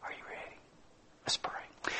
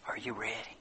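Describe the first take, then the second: First: Barely audible whisper; whispered appeal. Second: Low, very soft question; hushed appeal. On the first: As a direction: whisper it as an invitation to prayer. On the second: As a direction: ask the congregation quietly and solemnly. Hushed appeal closing the sermon. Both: Real, not acted.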